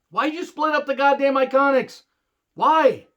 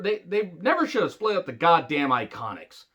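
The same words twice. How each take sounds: First: Higher, louder and fed up; exasperated outburst. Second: Said in the usual way. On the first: Real, not acted. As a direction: yell the question in disbelief. Repeated rant about Iconics split.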